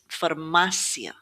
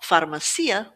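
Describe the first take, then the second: First: The stress falls on the middle syllable. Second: The stress falls off the middle syllable. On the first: The speaker calls it right. "Stress is going to fall on this A in the middle" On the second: The speaker calls it wrong. "It's not farmacia"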